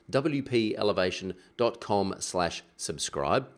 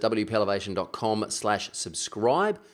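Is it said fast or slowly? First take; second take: slowly; fast. First: It is said slowly. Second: It is said fast.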